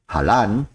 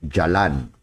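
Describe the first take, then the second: First: The word begins with an H sound. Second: The word begins with a J sound. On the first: This is the Bisaya way of reading it. "like halan if I use the Bisaya" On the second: This reflects influence from another language. "if we use some uh, influence from the other one, we say jalan"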